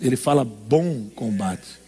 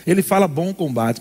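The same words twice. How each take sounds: First: Slow, low "bom combate" with weight on "fala"; "bom combate" said slowly and low; stress on bom combate. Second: Said in the usual way. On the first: Shown as a demonstration. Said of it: "não fala de combate". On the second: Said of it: "Ele não fala de combate".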